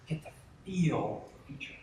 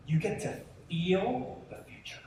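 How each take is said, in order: First: Said in the usual way. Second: Breathy hushed whisper, slow. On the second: Shown as a demonstration. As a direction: whisper it like a secret.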